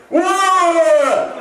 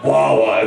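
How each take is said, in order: First: Gleeful shout. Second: Said in the usual way. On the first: Shown as a demonstration. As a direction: belt out Wawa like a cheer. Shouting the store name gleefully.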